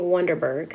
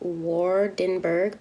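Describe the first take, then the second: First: The name begins 'Won' and ends 'berg'. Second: The name begins 'Waar' and ends 'burg'. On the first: The speaker calls it wrong. "I keep saying Wonderberg" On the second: The speaker calls it right. "It's pronounced Waardenburg"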